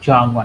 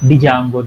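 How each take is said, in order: First: The word starts with a J sound. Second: The word starts with a sounded D. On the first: The speaker calls it right. "డి is a silent letter" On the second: The speaker calls it wrong. "డిజాంగో అనొద్దు"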